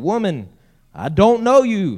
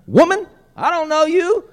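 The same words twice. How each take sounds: First: Put-on loud, raised denial with a touch of Albemarle accent. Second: Very high, loud, comic Albemarle denial; hammed-up Albemarle accent. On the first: Peter denying Jesus to the servant girl, slight Albemarle accent. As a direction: deny it emphatically, lightly Albemarle. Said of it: "Sounds like he's from Albemarle". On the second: Preacher mocking Peter's denial to the woman, hammed-up Albemarle accent. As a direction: squeal it in an exaggerated Albemarle accent, rising at the end. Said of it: "Sound like he's from Albemarle".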